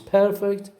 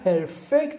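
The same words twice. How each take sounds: First: The stress is on the first syllable. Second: The stress is on the second syllable. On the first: It describes something flawless. "you put the stress on the first syllable" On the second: It means to make something flawless. "put the stress on the second syllable"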